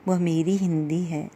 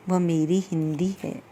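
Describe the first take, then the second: No difference in how they are said.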